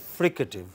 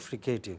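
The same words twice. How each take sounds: First: It is said the standard, non-Indian way. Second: It is said the way many Indian speakers say it. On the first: The speaker calls it right. "it is fricative" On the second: The speaker calls it wrong. "Many of us in India pronounce it as fricative. It is not fricative"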